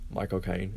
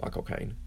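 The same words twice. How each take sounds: First: Soft, quiet British accent said aloud; spoken British Michael Caine; voiced British accent. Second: Breathy whisper of the name in a British accent; whispered British Michael Caine. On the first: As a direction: say it aloud as a Brit naming himself. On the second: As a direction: whisper it like a Brit saying his name. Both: Shown as a demonstration. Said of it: "in a British accent".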